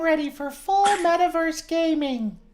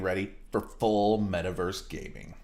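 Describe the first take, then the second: First: It is said in a put-on character voice. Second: It is said in a natural speaking voice.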